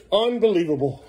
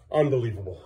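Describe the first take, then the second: First: Louder, higher, fed-up repeat; exasperated outburst. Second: Said in the usual way. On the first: Real, not acted. Parent fed up with Beckham running off, exasperated. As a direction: let the frustration out.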